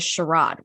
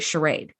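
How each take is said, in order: First: The word is said with a British pronunciation. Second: The word is said with an American pronunciation. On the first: "which is the British pronunciation" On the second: "the word that we say charade"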